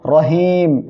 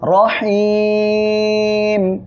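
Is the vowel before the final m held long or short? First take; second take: short; long. First: The vowel before the final m is kept short. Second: The vowel before the final m is drawn out long. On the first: The speaker calls it wrong. "কেউ যেন বলবেন না রহিম, এটা বললে কিন্তু ভুল হবে" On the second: The speaker calls it right. "3 আলিফ টেনে পড়তে হবে"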